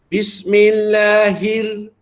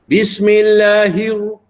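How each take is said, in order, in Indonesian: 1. Bunyi hi nipis dan ringan. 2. Bunyi hi tebal, seperti hiu. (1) "Ambil takrir ra tu dulu dalam keadaan nipis" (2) "hi jadi hiu bunyi dia ... Dibaca tebal"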